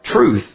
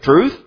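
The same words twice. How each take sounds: First: It is said in a dismissive, cynical tone. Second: It is said in a curious, questioning tone. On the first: There is no such thing as truth. "He could have said it like" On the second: The speaker wants to hear more about truth. "Perhaps Pilate was curious"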